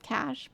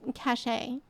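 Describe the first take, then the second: First: The word is said as one syllable. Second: The word is said as two syllables. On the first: The speaker calls it right. "I think the actual pronunciation is cash" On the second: The speaker calls it wrong. "I'm cachet. We say things weird on purpose"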